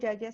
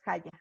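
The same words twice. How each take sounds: First: The word begins with a y sound. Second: The word begins with a harsh h-like sound. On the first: The speaker calls it right. "La J se pronuncia como Y" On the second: The speaker calls it wrong. "No es Jaya"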